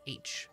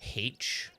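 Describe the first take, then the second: First: Said without an H sound at the start. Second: Said with an added H sound, British style.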